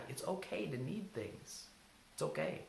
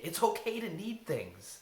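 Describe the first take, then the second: First: Gentle reassurance. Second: Said in the usual way. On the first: Shown as a demonstration.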